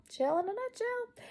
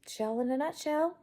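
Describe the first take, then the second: First: Much higher, playful put-on repeat. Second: Said in the usual way. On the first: Woman playfully repeats her own catchphrase in a high put-on voice. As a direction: squeak the catchphrase up high for fun.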